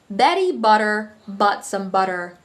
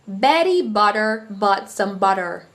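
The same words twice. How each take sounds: First: It is spoken in an American accent. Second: The same.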